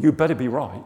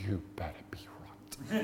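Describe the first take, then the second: First: Firm, louder warning. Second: Low, menacing whisper; whispered warning. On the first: Workmate warning Rog before he prays, loud warning. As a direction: warn him out loud, punchy. Acted warning, first take aloud. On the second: Workmate warning Rog face to face, whispered. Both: Retold or imitated.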